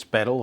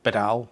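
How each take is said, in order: First: Bedell stressed on the first syllable, like "BEDDle"; first pronunciation of Bedell. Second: Bedell stressed on the second syllable, like "beDELL"; alternative pronunciation of Bedell. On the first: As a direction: say Bedell to rhyme with "medal". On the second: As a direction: put the weight on the end of Bedell. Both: Shown as a demonstration. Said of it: "I'll say it both ways".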